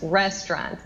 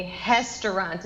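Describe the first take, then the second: First: Restaurant with a curled English R; rolled-back R in restaurant. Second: Restaurant with the R said as a breathy H, hestaurant; H-sound R. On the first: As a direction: retroflex R at the start of restaurant. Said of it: "em vez de". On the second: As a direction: Brazilian R in restaurant. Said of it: "como se fosse H pra mim". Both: Shown as a demonstration.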